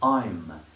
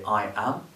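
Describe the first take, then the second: First: It is said as one contracted syllable. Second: It is said as two separate full words. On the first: "or we might say I'm" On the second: "we might say I am"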